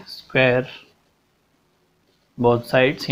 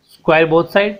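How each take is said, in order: First: Slower and softer, for copying down; slow, softer dictation repeat. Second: Said in the usual way. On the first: Shown as a demonstration. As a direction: repeat it slowly so they can write it. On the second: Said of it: "same theory रहेगी".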